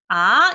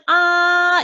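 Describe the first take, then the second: First: The pitch rises from middle to high. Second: The pitch stays high and level. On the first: "삼에서부터 시작해서 오까지 올려주는 음" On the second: "높고 길게"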